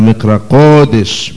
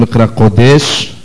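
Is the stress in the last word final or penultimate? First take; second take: penultimate; final. First: The stress falls on the penultimate syllable. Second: The stress falls on the final syllable. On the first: The speaker calls it right. "אלא מקרא קודש מלעיל" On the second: The speaker calls it wrong. "לא אומרים מקרא קודש"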